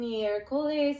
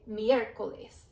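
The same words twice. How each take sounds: First: The stress falls on a later syllable. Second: The stress falls on the first syllable. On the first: The speaker calls it wrong. "instead of saying miércoles and being really confused" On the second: The speaker calls it right. "our stress is going to be on that letter right there"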